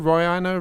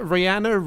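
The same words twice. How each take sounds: First: Rihanna said rye-AN-uh; second pronunciation. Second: Rihanna said ree-AN-uh; first pronunciation. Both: Shown as a demonstration. Trying out two pronunciations of a name.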